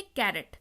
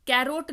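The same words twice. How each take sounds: First: "कैरेट" with a reduced second vowel, pitch falling; correct carrot pronunciation. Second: "कैरोट" ending in a long O plus T; mispronounced carrot. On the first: Teacher answering her own question to learners, "कैरेट" with short second vowel. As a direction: drop low on "कैरेट", ending in a short "rut". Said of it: "इसको क्या पढ़ेंगे?". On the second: Teacher ruling out the misreading, "कैरोट" with a long O. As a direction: say "कैरोट" as "care-oat", O fully sounded. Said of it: "कैरोट नहीं पढ़ेंगे". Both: Shown as a demonstration.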